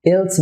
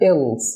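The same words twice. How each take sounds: First: "এলস" with a light tongue-tip L; clear, light L instead of dark; wrong thin L. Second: "এলস" with a thick, held-back L; unreleased mid-tongue L before the s; dark L. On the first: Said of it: "এলস বলছি না". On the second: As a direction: darken the L in "এলস", don't thin it. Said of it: "আমি কিন্তু পাতলা করছি না এল". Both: Shown as a demonstration.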